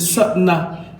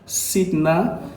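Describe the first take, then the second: First: The first vowel sounds like 'a'. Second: The first vowel sounds like 'i'. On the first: The speaker calls it right. "ça doit se prononcer Satna" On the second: The speaker calls it wrong. "Vous allez voir Sidna"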